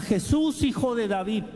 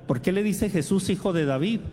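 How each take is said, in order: First: High pleading call to Jesus; mock-shouted plea; retold cry. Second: Said in the usual way. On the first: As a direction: call out his name, much higher, imploring. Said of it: "le grita". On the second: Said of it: "Algunos preguntarán".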